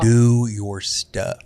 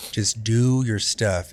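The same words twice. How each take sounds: First: Much slower, stretched, stress on Do; mock boss drawl. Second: Every word drawn out, stress on do; slow insistent order. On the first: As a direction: drag out the order in a mocking voice. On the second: Retold or imitated. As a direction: spell out each word slowly like a boss giving orders. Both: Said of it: "He's like".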